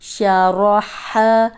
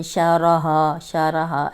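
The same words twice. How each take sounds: First: 'हा' pushed from the throat, slow; throaty ha. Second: 'हा' said as a plain h, not from the throat; wrong plain ha. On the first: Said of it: "हलक से निकालें". ('हा' को हलक से धीरे निकालना) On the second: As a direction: demo the mistake with an ordinary 'हा'. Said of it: "ऐसे नहीं पढ़ना". ('हा' को हलक से नहीं, सादा पढ़ना) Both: Shown as a demonstration.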